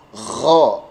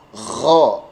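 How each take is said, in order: First: The r is weak and mixed with a kh sound. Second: The same.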